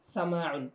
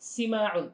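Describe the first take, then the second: First: The first vowel sounds like 'a'. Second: The first vowel sounds like 'i'. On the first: The speaker calls it right. "সঠিক উচ্চারণটি হচ্ছে সামাউন" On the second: The speaker calls it wrong. "অনেক বেশি মানুষ বলে থাকে সিমাউন"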